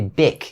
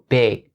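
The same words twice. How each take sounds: First: The word ends with a k sound. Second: The word ends with a g sound. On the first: The speaker calls it wrong. "don't mistake it for the k sound and don't say big" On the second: The speaker calls it right. "It has to be big"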